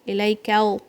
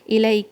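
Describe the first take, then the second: First: The L is light, like an English L. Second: The L is firm and solid. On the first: The speaker calls it wrong. "don't say it like that" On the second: The speaker calls it right. "The lam in Arabic is firm"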